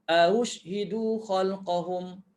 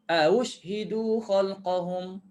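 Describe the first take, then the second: First: The first vowel is short before the second hamzah. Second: The same.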